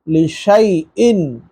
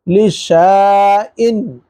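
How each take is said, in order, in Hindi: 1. बीच का स्वर 'ay' की आवाज़ है। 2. बीच का स्वर लंबी 'aa' आवाज़ है। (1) "लेकिन पढ़ना लिशैइन" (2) "लिखा हुआ तो इस तरह है"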